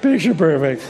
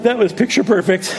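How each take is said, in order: First: Flat wry echo of "Picture perfect"; dry ironic echo. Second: Louder, laughing sarcasm; "That was picture perfect" laughed out sarcastically; laughing irony. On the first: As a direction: let the irony settle. Ironic echo of own words. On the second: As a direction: laugh at how badly it went. Ironic comment on ruined morning. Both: Real, not acted.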